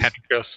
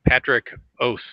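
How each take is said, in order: First: The name is run together as one word. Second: The name is said as two separate words. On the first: "run it all together as Patricos" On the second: "Is that how you pronounce it?"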